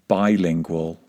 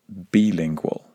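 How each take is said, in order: First: The first vowel is an 'eye' sound. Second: The first vowel is a different vowel. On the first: The speaker calls it right. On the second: The speaker calls it wrong.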